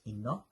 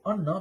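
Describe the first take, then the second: First: The word begins with an i vowel. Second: The word begins with an a vowel. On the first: The speaker calls it wrong. "he's reading it as inna" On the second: The speaker calls it right. "it should have a zabr"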